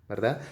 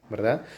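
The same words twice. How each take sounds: Both takes have the same delivery.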